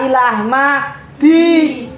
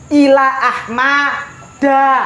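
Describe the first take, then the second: First: The name ends with a non-fathah vowel. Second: The name ends with a fathah vowel. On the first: The speaker calls it wrong. "ora ila ahmadi" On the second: The speaker calls it right.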